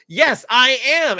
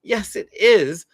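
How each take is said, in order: First: Higher, louder, slow insistent yes; the kid still fuming insists; upset kid. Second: A touch louder, slow, relieved yes; the kid feels understood and agrees; relieved agreement. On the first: Angry kid insists to the parent, higher and louder. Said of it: "Or they're gonna say". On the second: Kid who feels seen agrees slowly, a touch relieved. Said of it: "feel totally seen and say". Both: Retold or imitated.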